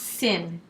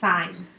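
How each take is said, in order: First: The vowel is short, rhyming with 'pin'. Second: The vowel is long, rhyming with 'line'. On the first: The speaker calls it wrong. "It's not pronounced sin" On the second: The speaker calls it right. "It is pronounced sign"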